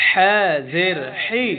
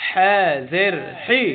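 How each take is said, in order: No difference in how they are said.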